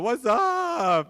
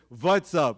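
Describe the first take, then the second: First: It is said with an American accent. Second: It is said with an Indian accent. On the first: "you talk to a fellow American. Say" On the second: "we talked to an Indian guy. He said"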